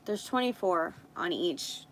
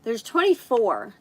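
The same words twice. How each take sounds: First: Said in the usual way. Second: Real surprise, louder; surprised. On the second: Real, not acted. Finding more nail tips than she thought, surprised. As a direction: blurt it out, caught off guard. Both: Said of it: "oh my gosh".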